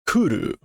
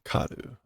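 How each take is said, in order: First: The first vowel is an 'u' sound. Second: The first vowel is an 'a' sound. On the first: The speaker calls it right. "Kuru, not karu" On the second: The speaker calls it wrong. "not karu"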